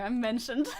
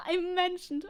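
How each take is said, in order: First: Said in the usual way. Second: Higher, delighted repeat after a laugh; pleased squeal of recognition, lightly done; amused delight. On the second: Real, not acted. Streamer spots herself mentioned in the video, amused delight.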